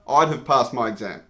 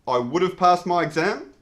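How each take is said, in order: First: The word 'would' is contracted to 'I'd'. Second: The word 'would' is said in full. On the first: The speaker calls it right. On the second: The speaker calls it wrong.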